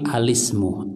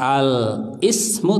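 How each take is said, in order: First: Al runs straight into the word without break. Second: Al is said apart, with a glottal stop. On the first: The speaker calls it right. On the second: The speaker calls it wrong.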